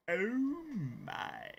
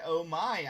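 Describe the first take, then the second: First: George Takei. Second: Said in the usual way. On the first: Acted. Streamer shows viewers a George Takei impression, swooping drawn-out catchphrase. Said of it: "I could totally go as George Takei". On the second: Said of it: "you said".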